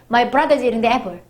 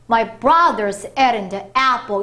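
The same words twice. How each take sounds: First: Content words are rushed too, so it sounds hurried. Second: Content words stay full; only small words shrink.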